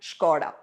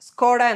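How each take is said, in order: First: The word begins with an 'sh' sound. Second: The word begins with an 's' sound. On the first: The speaker calls it right. "ഷ് സൗണ്ടാണ് ആദ്യം വരേണ്ടത്" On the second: The speaker calls it wrong. "എസ് sound അല്ല"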